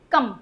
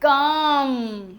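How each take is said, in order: First: कम said short, vowel not held. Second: कम stretched very long on the vowel; wrongly lengthened vowel. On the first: Teacher shows students the exception's real sound, short vowel. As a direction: keep कम brief. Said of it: "अपन pronunciation क्या कर रहे हैं". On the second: Teacher shows students how not to say it, overlong vowel. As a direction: draw कम out slowly. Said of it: "ऐसे नहीं बोल रहे". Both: Shown as a demonstration.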